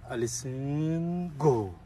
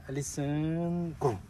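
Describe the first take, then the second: No difference in how they are said.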